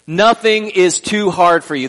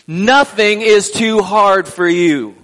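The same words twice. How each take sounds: First: It is said plainly, without much feeling. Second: It is said with strong feeling and energy.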